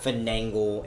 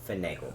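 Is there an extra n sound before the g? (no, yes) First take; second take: yes; no. First: An extra n sound comes before the g. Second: No n sound comes before the g. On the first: The speaker calls it wrong. "It's not finangle" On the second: The speaker calls it right. "It's just finagle"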